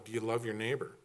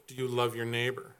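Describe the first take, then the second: First: YOU leaned on, question rising; stress on YOU. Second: LOVE leaned on, held a touch longer; stress on LOVE. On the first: Preacher pressing the church on the word you. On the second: Preacher pressing the church on the word love. Repeated question, stress shifts. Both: Real, not acted.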